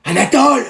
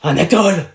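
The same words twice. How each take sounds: First: Louder call. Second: Said in the usual way. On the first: Acted. Calling classmate during test.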